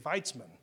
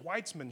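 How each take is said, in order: First: The name begins with a V sound. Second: The name begins with a W sound. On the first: "they would say Weitzman" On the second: "you look at a street and it's like, hey, there's Weitzman Street"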